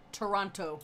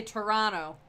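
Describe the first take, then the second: First: "Toronto" with both Ts sounded; careful, fully spelt-out "Toronto"; outsider's pronunciation. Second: "Toronto" with the second T dropped; local pronunciation. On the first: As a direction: pronounce the second T in "Toronto". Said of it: "You can't say the Toronto". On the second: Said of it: "you gotta say Toronto". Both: Shown as a demonstration.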